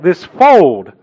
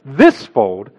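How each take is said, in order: First: The word "fold" carries the stress. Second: The word "this" carries the stress. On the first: The speaker calls it right. "but you would read it like this fold" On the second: The speaker calls it wrong. "you wouldn't read it like this fold"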